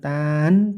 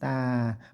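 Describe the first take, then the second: First: The syllable ends with an n sound. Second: The syllable ends without an n sound. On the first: The speaker calls it wrong. "bukan tan" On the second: The speaker calls it right. "tidak n lagi ya, tanpa n"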